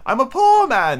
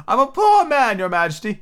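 First: High, pleading little man's voice; nervous Hatter. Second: High, pleading kneel-down plea; pleading Hatter. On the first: Hatter pleading before the king, high and nervous. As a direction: plead anxiously as the frightened Hatter. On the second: Hatter on one knee begs the king, high. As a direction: beg the king for mercy. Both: Acted.

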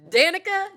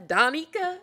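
First: DAN-ica, "Danica" with stress up front, high and loud; trying a name pronunciation. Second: "Donica" as dah-NEE-kuh, high and loud; alternate name pronunciation. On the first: Reader testing name pronunciations, trying DAN-ica. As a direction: say "Danica" as DAN-ih-kuh, questioning. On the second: Reader testing name pronunciations, trying dah-NEE-kuh. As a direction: try "Donica" with an open AH and stressed middle. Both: Shown as a demonstration. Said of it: "I'ma pronunciate the way I need to".

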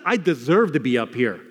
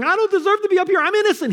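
First: Lower, sober owning of guilt; resigned admission. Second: High-pitched mock protest of innocence; indignant protest. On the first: Acted. Preacher voicing the criminal owning his guilt, lowered sober admission. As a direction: admit it soberly, voice dropped. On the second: Preacher mimicking a criminal denying guilt, high indignant protest.

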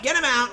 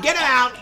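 First: Him stressed in Get him out. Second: Loud, stress on get; shouting. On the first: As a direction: hit the word him. Second shout. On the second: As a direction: punch the word Get. First shout. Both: Acted.

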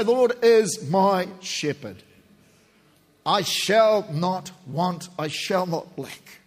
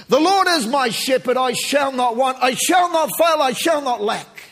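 First: Slow prayerful recitation. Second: High, loud proclaiming of the psalm; triumphant preacher's cry; shouted declaration. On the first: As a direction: let each phrase settle slowly, reverently. Psalm spoken slowly in prayer. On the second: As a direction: proclaim it with hammering emphasis on shall. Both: Real, not acted.

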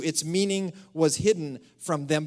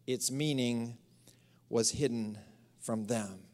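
First: Said in the usual way. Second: Slow hushed whisper of the verse; dropped to a whisper for mystery. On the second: Acted. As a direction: whisper it like a secret. Scripture line read hushed.

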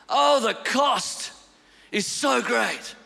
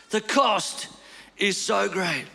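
First: Slow, heavy. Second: Said in the usual way. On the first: Acted.

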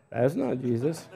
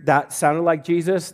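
First: Quiet disapproving verdict. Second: Said in the usual way. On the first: Retold or imitated. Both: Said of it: "it's always better when you hear".

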